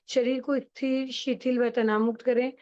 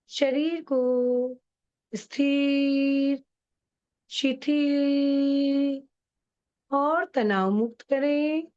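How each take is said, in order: First: It is said flatly and directly, at normal pace. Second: It is said slowly in a soft, sweet voice.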